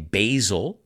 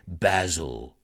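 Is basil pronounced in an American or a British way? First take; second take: American; British. First: The word is said with an American pronunciation. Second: The word is said with a British pronunciation. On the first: "which we say basil" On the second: "The British say basil"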